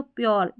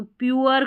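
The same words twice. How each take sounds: First: प्योर said as one syllable, "pyor"; spoken form, pyor. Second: प्योर said as "pyoo-er", with oo then a schwa; two-syllable pyoo-er. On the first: Teacher showing how it sounds in speech, one-syllable प्योर. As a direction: merge प्योर into a single o sound. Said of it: "अगर बोलेंगे तो प्योर". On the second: Teacher showing how the spelling builds up, प्योर as pyoo-er. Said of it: "तो प्योर करके बनेगा". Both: Shown as a demonstration.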